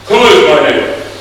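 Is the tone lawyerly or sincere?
lawyerly. It is asked in a legalistic Washington-lawyer tone.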